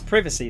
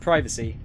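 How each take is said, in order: First: The first i is short, as in 'privy'. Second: The first i is long, as in 'pry'. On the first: "So it's privacy then" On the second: "instead of privacy"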